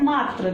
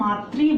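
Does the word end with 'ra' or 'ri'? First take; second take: ra; ri. First: The word ends with an 'ra' sound. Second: The word ends with an 'ri' sound. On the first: The speaker calls it wrong. "इसको लोग बोलते हैं मात्र, तो ये मात्र नहीं है" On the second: The speaker calls it right. "इसको हम मात्री बोलेंगे, यानी कि इसमें री का उच्चारण होता है"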